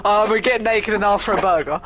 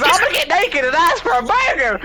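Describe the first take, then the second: First: Said in the usual way. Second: High squawking parrot repeating. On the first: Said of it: "let's take a quote". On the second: Retold or imitated. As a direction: blurt it out like a mimicking parrot. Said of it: "the fucking parrot just goes".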